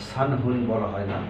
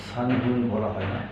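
No difference in how they are said.

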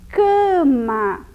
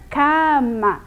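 First: The first vowel is a closed nasal A. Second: The first vowel is a wide open A. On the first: The speaker calls it right. "Fica cama" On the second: The speaker calls it wrong. "Não fica cama, né? Com o A aberto"

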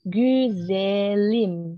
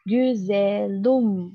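First: The final vowel is an unrounded i. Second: The final vowel is a rounded u. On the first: The speaker calls it right. "Lebih enak güzelim kan ya daripada güzelum" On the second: The speaker calls it wrong. "bibirnya kan agak dari yang tadinya gini, jadi kita rubah ke u gitu kan, agak ribet lah ya"

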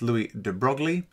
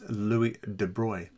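First: The name is sounded out the way it is spelled. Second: The name is said the way native speakers say it. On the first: The speaker calls it wrong. "you might read this as Louis de Broglie. That's not how you pronounce it" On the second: The speaker calls it right. "It's Louis de Broglie"

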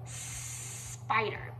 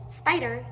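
First: The starting S sound is held long and stretched. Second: The starting S sound is short and ordinary. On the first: "you can prolong that S sound" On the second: "So instead of saying spider"

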